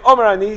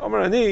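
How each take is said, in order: First: It is said in a forceful, assertive tone. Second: It is said in a modest, humble tone. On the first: The speaker asserts his own authority. The speaker calls it wrong. "He's not saying it with a sense of koach" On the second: The speaker offers his view only to those interested. The speaker calls it right. "He's saying it in a derech anivus"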